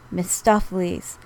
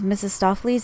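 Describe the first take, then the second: First: The name begins with a 'Miss' sound. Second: The name begins with a 'Missus' sound. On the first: The speaker calls it right. "is, in fact, Miss Stoffleys" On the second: The speaker calls it wrong. "The word you were pronouncing as Mrs. Stoffleys"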